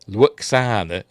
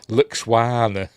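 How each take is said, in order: First: The name is said without a w sound. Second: The name is said with a w sound. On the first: This is how the name is normally said. The speaker calls it right. "He don't call her Luxana" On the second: This is how the character mispronounces the name. The speaker calls it wrong. "He calls her Luxwana"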